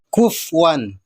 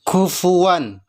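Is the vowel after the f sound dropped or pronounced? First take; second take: dropped; pronounced. First: The f goes straight into w without a vowel. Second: A 'u' vowel is heard after the f. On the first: The speaker calls it wrong. "tidak boleh" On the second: The speaker calls it right. "Harusnya ... karena fa-nya dhammah"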